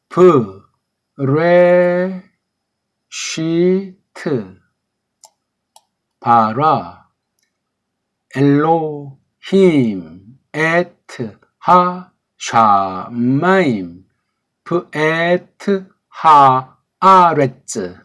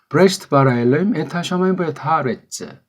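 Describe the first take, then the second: First: It is read slowly. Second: It is read fast.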